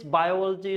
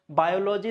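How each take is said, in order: First: "biology" stressed bi-OL-ogy; correct stress. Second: "biology" as bio-LO-ji; wrong pronunciation. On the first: Teacher correcting learners, "biology" stressed bi-OL-ogy. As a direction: hit OL in "biology". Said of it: "it's biology". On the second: Teacher showing the mistake, "biology" as bio-LO-ji. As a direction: say "biology" like bio plus logy. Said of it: "It's not biology". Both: Shown as a demonstration.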